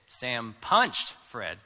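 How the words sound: The stress is on punched.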